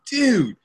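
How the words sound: The word sounds warm and friendly. You're my friend.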